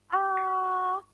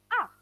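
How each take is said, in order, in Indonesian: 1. Nadanya tetap tinggi dan datar. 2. Nadanya turun tajam dari tinggi ke rendah. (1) "itu mendatar" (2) "turun atau dihentakkan"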